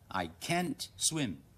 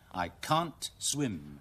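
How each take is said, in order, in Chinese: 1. 这句是用美式口音说的。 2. 这句是用英式口音说的。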